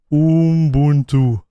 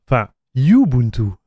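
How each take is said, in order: First: Ubuntu drawn out slowly as "oom-BOON-too", falling; his usual Ubuntu. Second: Ubuntu corrected to "you-BOON-too" after a French "enfin", falling; French-style correction. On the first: Naming the computer, he draws out his own slow oom-boon-too. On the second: Correcting himself for viewers, a French "enfin" and then you-boon-too. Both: Shown as a demonstration. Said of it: "Why do you say Ubuntu, lol?".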